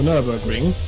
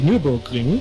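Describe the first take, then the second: First: The name is said with English vowel sounds. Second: The name is said with German vowel sounds. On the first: "all English speakers would know what it means" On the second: "would sound like broken up and weird"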